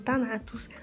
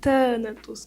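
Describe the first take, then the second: First: The stress is on the second syllable. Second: The stress is on the first syllable. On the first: The speaker calls it wrong. "eu passei o vídeo todo falando Thanatos" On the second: The speaker calls it right. "a forma correta de se pronunciar é Thanatos, com acento"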